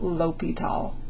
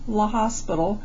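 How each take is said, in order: First: The name is said the French way, without s. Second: The name is read as spelled, like hospital. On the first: The speaker calls it right. "but it is pronounced L'Hopital" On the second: The speaker calls it wrong. "It looks a lot like La Hospital"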